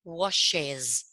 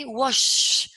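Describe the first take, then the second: First: "Washes" in two syllables, lower, ending in a clear "-ez"; added ES syllable. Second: "Wash" with a long, loud final shhh; drawn-out SH. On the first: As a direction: sound out the extra "-es" after the sh in "Washes". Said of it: "la E S para poder pro-, pronunciarlo". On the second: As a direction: hold the hushing sound at the end of "Wash". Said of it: "¿Cuántos sonidos sh voy a poner juntos?". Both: Shown as a demonstration.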